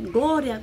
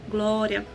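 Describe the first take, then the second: First: It is said intensely, with loud high energy. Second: It is said softly, with tired low energy. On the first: She was getting caught up in the prayer. "Aí depois eu já tava mais intensa" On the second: She was tired and wanted to sleep. "eu tava cansada"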